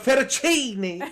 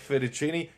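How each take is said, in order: First: It is said in an exaggerated Italian accent. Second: It is said in a plain English accent.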